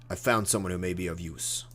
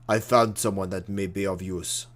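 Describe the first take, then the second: First: It is said in an American accent. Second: It is said in a non-American accent.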